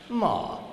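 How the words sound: The pitch falls across the syllable.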